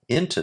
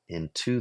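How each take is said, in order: First: The stress is on the first syllable. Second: The stress is on the second syllable. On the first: "if I make it a trochee" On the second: "I could say it that way"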